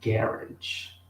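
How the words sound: It is said with a British pronunciation. "os britânicos vão falar garage"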